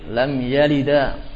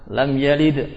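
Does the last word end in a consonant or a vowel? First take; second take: vowel; consonant. First: The last word ends on an added vowel. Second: The last word ends on a consonant. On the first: The speaker calls it wrong. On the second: The speaker calls it right.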